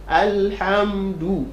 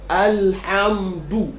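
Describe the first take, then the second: Both takes have the same delivery.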